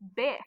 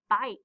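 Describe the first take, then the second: First: The vowel is a short i sound. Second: The vowel is a long i sound. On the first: The speaker calls it wrong. "we're not saying b, ik, bick" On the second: The speaker calls it right. "It's bike"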